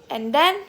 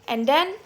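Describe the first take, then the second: The two takes are said the same way.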